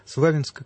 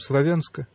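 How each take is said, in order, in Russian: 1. Название произносят по-донбасски, по-местному. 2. Название произносят по-общерусски, литературно.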